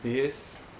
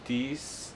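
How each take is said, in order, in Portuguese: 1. Começa com som de th. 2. Começa com um som parecido com d. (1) "em vez de this" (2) "eu falava this"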